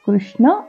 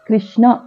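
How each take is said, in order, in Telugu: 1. మొదటి అక్షరాన్ని 'ru' ధ్వనితో పలుకుతారు. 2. మొదటి అక్షరాన్ని 'i' అచ్చుతో పలుకుతారు. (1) "కృష్ణ అనేది కరెక్ట్" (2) "గుణింతల్లో ఇకారం కలిపినట్లుగా కృష్ణ అని పలుకుతాం"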